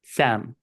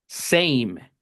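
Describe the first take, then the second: First: "Sam" with a short flat a, no glide. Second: "same" said as "seim", gliding a to i; diphthong a in same. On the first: Teacher contrasting Sam with same for students, short a. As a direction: say "Sam" with a plain short a, no diphthong. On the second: Teacher contrasting same with Sam for students, gliding ei. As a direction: glide the a in "same" into "ei". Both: Shown as a demonstration. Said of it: "para que suene same y no Sam".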